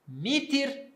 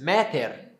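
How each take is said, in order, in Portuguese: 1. As duas vogais são sons de 'i'. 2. As vogais são 'a' e depois 'e'. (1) "grego koiné" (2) "como seria antes?"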